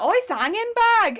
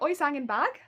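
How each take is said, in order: First: The tune does not sound like a question. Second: The tune sounds like a question. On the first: The speaker calls it wrong. "that's absolutely not the intonation you want to put on it" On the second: The speaker calls it right. "it's supposed to be like, ... because it's a question"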